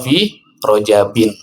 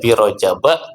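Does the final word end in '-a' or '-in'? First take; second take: -in; -a. First: The word ends with an 'in' sound. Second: The word ends with a short 'a' vowel. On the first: It names Rajab in general. "boleh dibaca fi rojabin" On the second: It names one particular Rajab. "boleh dibaca fi rojaba"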